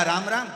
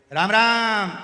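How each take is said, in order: First: "राम राम" called out louder and higher, ending on a rise; shouted greeting. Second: "राम राम" shouted high and loud, long falling "राम"; shouted greeting. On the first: Deaf grandfather yells "राम राम" to the bedridden friend, ending on a rise. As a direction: yell "राम राम" so the whole hospital hears. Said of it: "जो चिल्लाया". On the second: Deaf grandfather shouts "राम राम" at the sick patient in loud greeting. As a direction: bellow "राम राम" across the ward. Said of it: "वो चिल्ला के बोलता है". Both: Retold or imitated.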